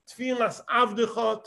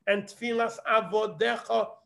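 First: Avdecha said as three syllables, av-de-cha; a careful read of Avdecha as av-de-cha; Avdecha, short form. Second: Avodecha with the full o, a-vo-de-cha; a careful read of Avodecha as a-vo-de-cha; Avodecha, long form. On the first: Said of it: "What is the difference between Avdecha and Avdecha". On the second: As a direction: stretch out Avodecha into four syllables, a-vo-de-cha. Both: Shown as a demonstration.

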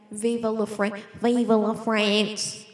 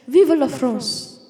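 First: "Viva la France" in a broad Australian accent. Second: "Viva la France" in a put-on French accent, loud. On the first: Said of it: "in a normal Australian accent". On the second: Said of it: "I become a Frenchman". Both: Shown as a demonstration.

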